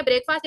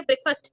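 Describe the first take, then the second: First: "ब्रेकफास्ट" as break-faast; wrong pronunciation. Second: "ब्रेकफास्ट" as brek-fust; correct pronunciation. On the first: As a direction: say "ब्रेकफास्ट" with a long aa in the ending. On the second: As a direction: say "ब्रेकफास्ट" with a short, reduced ending. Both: Shown as a demonstration. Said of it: "एक है".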